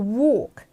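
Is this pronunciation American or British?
British. It is said in a British accent. "영국 발음으로는 ... 약간 이런 느낌으로"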